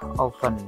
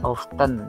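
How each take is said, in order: First: The t sound is faint, almost silent. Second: The t sound is clearly pronounced. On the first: The speaker calls it right. "T-nya agak samar ya" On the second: The speaker calls it wrong. "bukan often"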